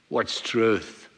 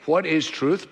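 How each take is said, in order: First: It is asked in a flippant, dismissive way. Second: It is asked as a sincere question.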